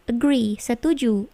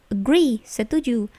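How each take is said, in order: Both takes have the same delivery.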